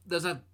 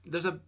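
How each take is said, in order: Both takes have the same delivery.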